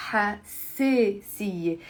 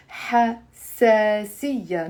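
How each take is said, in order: First: حساسية with an e for the alif, ha-se-siye; Lebanese e vowel. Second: حساسية with an open a, ha-sa-siya; written alif vowel. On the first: Teacher showing Lebanese dialect, alif as e. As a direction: slowly say حساسية the Lebanese way, "se" in the middle. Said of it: "I'm pronouncing it as a e". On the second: Teacher showing the written Arabic form, alif as a. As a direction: slowly sound the alif in حساسية as "sa". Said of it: "it's written with an alif". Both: Shown as a demonstration.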